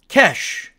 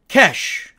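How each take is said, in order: No difference in how they are said.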